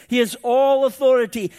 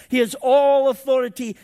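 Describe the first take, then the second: Both takes have the same delivery.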